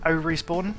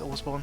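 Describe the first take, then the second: First: It is split as O plus respawn. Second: It is split as ore plus spawn. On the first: The speaker calls it wrong. "which I used to think more of as O Respawn" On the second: The speaker calls it right. "it's Orespawn"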